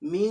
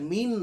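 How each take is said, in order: First: The final n is hidden in the nose. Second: The final n is said clearly. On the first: The speaker calls it right. "নাকের ভিতরে" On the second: The speaker calls it wrong. "মিন না"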